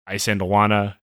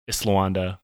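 First: Isandlwana with the n before the d; alternate pronunciation. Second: Islawanda with the n moved near the end; preferred pronunciation. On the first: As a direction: say Isandlwana as spelled, n-d-l in the middle. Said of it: "I've heard it pronounced both ways". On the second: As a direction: say Islawanda, "sla" first and "wanda" last. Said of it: "I believe Islawanda's correct". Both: Shown as a demonstration.

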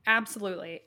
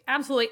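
First: Said in the usual way. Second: Higher and louder second absolutely; a stronger echo of absolutely; emphatic repeat. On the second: Real, not acted. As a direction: punch the repeated absolutely with a lift.

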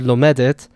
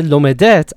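First: Lomedet stressed on the middle, lo-MED-et; penultimate stress. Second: Lomedet stressed loudly on the last syllable, lo-me-DET; wrong final stress. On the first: Reading the word properly, lomedet stressed second-to-last. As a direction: put the weight on -med- in lomedet. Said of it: "The stress stays where it was". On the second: Quoting a mistake, lomedet wrongly stressed on the end. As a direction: throw the weight onto -det in lomedet. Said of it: "I would know that that's wrong". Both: Shown as a demonstration.

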